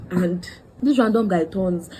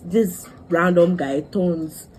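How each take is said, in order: First: Said in the usual way. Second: Drawn out very slowly; slow first take. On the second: Shown as a demonstration. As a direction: stretch each word, then repeat.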